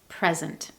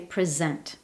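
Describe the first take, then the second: First: The stress is on the first syllable. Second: The stress is on the second syllable. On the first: Being in a place now, or a gift. "the stress is on the first syllable" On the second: To give, award, or formally show. "when the stress is on the second syllable"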